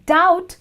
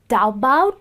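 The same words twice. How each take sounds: First: The B sound is silent in the word. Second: The B sound is pronounced in the word. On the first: The speaker calls it right. "It's doubt because B is silent" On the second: The speaker calls it wrong. "is not doubt. I don't even know how to pronounce that"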